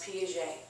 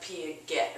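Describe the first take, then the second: First: The name is said with its native pronunciation. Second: The name is sounded out as it is spelled. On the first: The speaker calls it right. "It's pronounced Piaget" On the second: The speaker calls it wrong. "It looks like Piaget or something"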